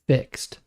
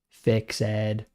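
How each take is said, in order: First: The ending joins the word in one syllable. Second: The ending is said as a separate syllable. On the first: The speaker calls it right. "We say it like that" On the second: The speaker calls it wrong. "he kept saying"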